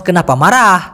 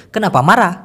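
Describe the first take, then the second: First: মারাহ ending in an audible breath of H; final H sounded. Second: মারা with the closing H barely there; final H dropped. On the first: Teacher demonstrates the Malay word for anger, H sounded at the end of মারাহ. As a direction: let মারাহ trail out on an H. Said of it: "মারার পরে যদি একটা হ দিয়ে দেন". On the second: Teacher shows how it sounds to listeners, মারা without an audible H. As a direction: cut মারা short on the open vowel. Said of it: "এই হটা কম উচ্চারণ করে". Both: Shown as a demonstration.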